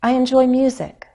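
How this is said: Only music carries the main stress. The speaker calls it right. "I'm making this key change in pitch on the word music because that's my focus word"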